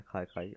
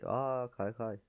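First: Said in the usual way. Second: A bright little "Aa, kaykay" of discovery; pleased surprise. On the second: Real, not acted. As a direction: sound like you just noticed it.

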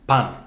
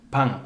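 First: Pan ending in a clear n; pan, plain n sound; normal n. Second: Pan with a nasal vowel, almost ng. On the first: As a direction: pan with a crisp n at the end. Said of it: "central Iberian pronunciation of the word bread". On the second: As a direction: end pan like pang, nasal. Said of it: "almost like a G sound". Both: Shown as a demonstration.

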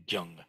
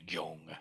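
First: Gyung with a short u vowel, gyoong. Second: Gyong with a round o vowel, the wrong way. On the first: Teacher giving the right Korean sound, gyung. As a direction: say gyung, quick and clear. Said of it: "the pronunciation is more like". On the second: Teacher showing the wrong Korean sound, gyong. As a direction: say gyong as the contrast. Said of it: "than gyong". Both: Shown as a demonstration.

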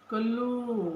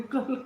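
First: कल्लू with short a and doubled l; कल्लू said as she first read it, mistaken; misread name. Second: कालू with long aa and single l; कालू stressed as the right name; corrected name. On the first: Real, not acted. Welcoming a viewer, reading the name as कल्लू. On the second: Shown as a demonstration. Host corrects herself to the viewer's name, कालू stressed. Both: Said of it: "कालू आहे बाई मी".

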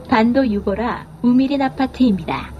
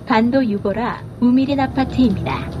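No difference in how they are said.

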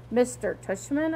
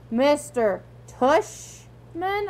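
First: Said in the usual way. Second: Drawn out very slowly in disbelief. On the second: Acted. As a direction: stretch the name out slowly. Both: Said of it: "I repeated".

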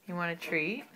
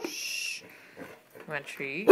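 First: Said in the usual way. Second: Slow, soft, coaxing question. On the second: Real, not acted. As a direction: coax the dog gently and slowly. Offering dog a treat.

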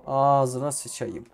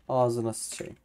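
First: Slow, louder, stretched curse with falling end; drawn-out exasperated curse. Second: Said in the usual way. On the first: Real, not acted. Gamer fed up with the game, slow exasperated curse. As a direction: drag it out in real exasperation. Frustrated gamer cursing twice.

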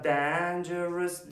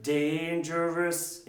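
First: "dangerous" with a flat "dan" as in "man"; first syllable of "dangerous" with short "a"; wrong vowel. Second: "Dangerous" with a drawn-out "dayn"; correct diphthong. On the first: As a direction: mispronounce "dangerous" as "dan-jerous". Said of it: "Ne diyor? Dangerous". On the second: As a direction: say "Dangerous" slowly as "dayn-jerous". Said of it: "Ne diyor?". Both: Shown as a demonstration.

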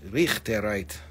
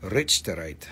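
First: Richterite with a throaty "kh", RIKH-teh-rite; local pronunciation. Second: Richterite with "rich" as in wealthy; anglicised pronunciation. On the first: Seller showing how locals say it, Richterite as RIKH-teh-rite. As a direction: say Richterite slowly, the "ch" as in Scottish loch. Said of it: "That's how they say it there". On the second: Seller spelling it out for buyers, Richterite as RITCH-ter-ite. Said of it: "Rich, Rich". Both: Shown as a demonstration.

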